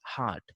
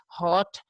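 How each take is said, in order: First: HEART for "hot", with an open "ah"; American pronunciation. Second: HOT with a slightly rounded "aw" vowel; British pronunciation. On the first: Teacher showing how Americans say hot, American pronunciation. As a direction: say "hot" with an unrounded ah. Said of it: "these people say the Americans". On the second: Teacher showing how British people say hot, British pronunciation. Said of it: "the British people say hot". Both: Shown as a demonstration.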